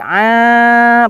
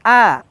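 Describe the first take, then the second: First: The vowel is held long. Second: The vowel is short. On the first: The speaker calls it right. "Tapi a, panjang" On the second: The speaker calls it wrong. "Bukan a, alif, bukan"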